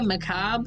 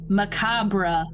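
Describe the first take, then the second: First: It sounds like 'my corn a cob'. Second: It has the standard ending, like 'bruh'. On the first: This is a playful personal pronunciation. "it sounds like my corn on a cob" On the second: This is the dictionary pronunciation. "as Google says"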